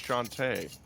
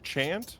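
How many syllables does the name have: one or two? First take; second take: two; one. First: The name is said as two syllables. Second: The name is said as one syllable. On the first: "versus two syllables" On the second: "it is a single syllable"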